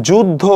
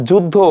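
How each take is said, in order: Both takes have the same delivery.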